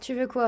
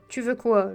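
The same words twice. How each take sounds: First: It is said in the speaker's ordinary voice. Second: It is said in a put-on brooding tough-guy voice.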